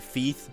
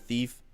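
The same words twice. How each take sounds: First: The word is pronounced in an odd way. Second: The word is pronounced in a normal way. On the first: This imitates how a friend said it. The speaker calls it wrong. "I had a friend that was pronounced things weird. He'd say thief" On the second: This is the usual way to say it. The speaker calls it right. "instead of thief"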